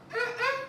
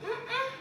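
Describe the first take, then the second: No difference in how they are said.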